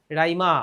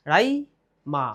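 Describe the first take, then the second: First: Said in the usual way. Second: Raima broken into two beats, রাই and মা, with a pause between; রাই, pause, then মা, counting out the syllables of Raima; split into syllables. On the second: Shown as a demonstration. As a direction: say Raima slowly, one syllable at a time.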